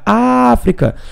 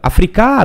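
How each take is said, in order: First: The stress falls on the first syllable. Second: The stress falls on a later syllable. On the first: The speaker calls it right. "Foi a antepenúltima" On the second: The speaker calls it wrong. "não posso fazer isso"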